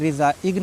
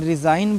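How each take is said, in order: First: A g sound is pronounced in the word. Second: The g is silent in the word. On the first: The speaker calls it wrong. "नहीं बोलना है" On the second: The speaker calls it right. "इसमें रिज़ाइन बोलना है, जी silent है"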